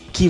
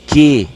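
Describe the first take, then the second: First: The word is said weakly, joined to the next word. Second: The word is said with strong, full stress. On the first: It is a conjunction introducing a clause. "o segundo é pronunciado com menor intensidade" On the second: It is a noun meaning a certain quality. "pronunciado com maior intensidade"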